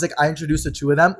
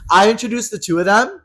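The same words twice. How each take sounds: First: Said in the usual way. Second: "I introduced the two of them" pitched high and loud; emphatic repeat. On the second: Real, not acted. Teller aggrieved at her own matchmaking, "I introduced the two of them" high and emphatic. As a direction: hammer "I introduced the two of them" with a raised, incredulous lift.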